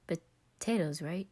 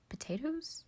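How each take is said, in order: First: Said in the usual way. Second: High rising Potatoes? in surprise; puzzled question. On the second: Acted. Roman googling barbecue, high puzzled question. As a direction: ask Potatoes? as if unsure.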